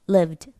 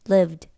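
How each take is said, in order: The two takes are said the same way.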